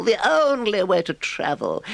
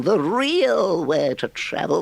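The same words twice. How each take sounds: First: "only" stretched and falling; "only" weighted in ecstatic certainty; stress on only. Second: "real" drawn out on a rising swoon; "real" lifted and lingered on; stress on real. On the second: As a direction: lean into "real", slow and rapt. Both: Acted. Toad rhapsodizes.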